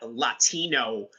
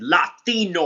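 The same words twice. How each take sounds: First: It is said with a plain English accent. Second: It is said with a Spanish accent.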